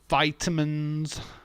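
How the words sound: It is said with an American pronunciation. "You call them vitamins"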